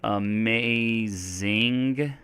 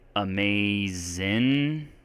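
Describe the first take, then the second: First: The ending has a full -ing with g. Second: The ending is -in without the g.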